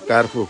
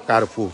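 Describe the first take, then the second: Both takes have the same delivery.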